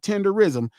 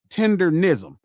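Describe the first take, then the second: First: There is no n sound before -ism. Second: There is an n sound before -ism. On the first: The speaker calls it wrong. "not tenderism" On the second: The speaker calls it right. "Tendernism, not tenderism, tendernism"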